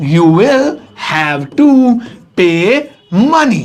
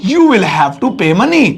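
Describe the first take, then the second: First: Slow words, each set apart by pauses; word-by-word dictation. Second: Said in the usual way. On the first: Shown as a demonstration. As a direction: dictate it slowly while writing. Dictating word by word while writing. (एक-एक शब्द रुक-रुककर लिखवाते हुए)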